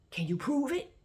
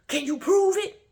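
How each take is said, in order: First: High, challenging question; indignant. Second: Very high, loud indignant shout. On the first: Imitating him challenging her for proof, indignant. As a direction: pitch it up like an affronted challenge. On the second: Imitating him demanding proof, loudly indignant. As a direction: yell it as an outraged challenge. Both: Retold or imitated. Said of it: "he gets indignant".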